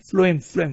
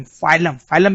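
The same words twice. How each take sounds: First: फ्लोएम said as "flo-em", two vowels apart; pronounced "flo-em". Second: फाइलम said as "fai-lum", no L after the F; pronounced "fai-lum". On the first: Teacher showing students one way to say phloem, फ्लोएम as "flo-em". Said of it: "कैसे pronounce करते हैं इसको". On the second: Teacher offering another way to say phloem, फाइलम as "fai-lum". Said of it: "फाइलम भी बोलते हैं, pronunciation के लिए". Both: Shown as a demonstration.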